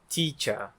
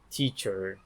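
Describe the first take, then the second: First: The word ends in a vowel with no r. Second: The word ends with a clear r sound. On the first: "de pronunciar teacher" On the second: "em vez de teacher"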